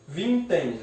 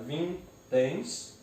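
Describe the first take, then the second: First: Said in the usual way. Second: "vinténs" slowly split into vin, téns; syllable by syllable. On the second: Shown as a demonstration. Teacher separates the word, "vinténs" syllable by syllable. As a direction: leave a gap inside "vinténs". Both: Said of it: "eu separo".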